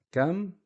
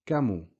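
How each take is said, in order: First: "Kam" high, ending on the M; stopped M. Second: "kamu" falling to a short final u; dhamma on the M. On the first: Teacher repeating the contrast, high stopped M. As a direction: say "Kam" higher in one closed syllable. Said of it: "a sukoon on the meme". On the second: Teacher repeating the contrast, added u. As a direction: carry "kamu" past the M into u. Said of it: "a dhamma short vowel". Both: Shown as a demonstration.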